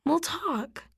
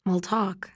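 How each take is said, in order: First: Assuring. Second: A hollow, defeated echo of her promise; empty echo. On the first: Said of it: "she assures me". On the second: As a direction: echo "We'll talk" back with nothing behind it. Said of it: "It sounds empty". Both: A narrator's reading.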